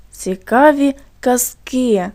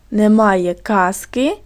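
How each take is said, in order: First: Slow, "казки" stressed on КИ; stress on last syllable. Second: Slow, "казки" stressed on КАЗ; stress on first syllable. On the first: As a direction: dictate slowly, leaning on the final syllable of "казки". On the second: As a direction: dictate slowly, leaning on the first syllable of "казки". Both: Shown as a demonstration. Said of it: "як змінився наголос в слові".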